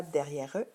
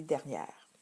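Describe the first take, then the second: First: "derrière eux" with an added "eux" sound at the end; wrong pronunciation. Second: "derrière" ending on the R, final E silent; correct pronunciation. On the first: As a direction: show the mistake by voicing the final E. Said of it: "On ne dit pas derrière eux". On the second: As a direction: give the right form after the mistake. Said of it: "on dit derrière". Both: Shown as a demonstration.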